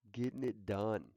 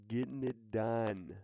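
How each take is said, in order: Both takes have the same delivery.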